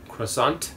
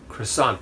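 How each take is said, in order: First: It is said with an English pronunciation. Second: The same.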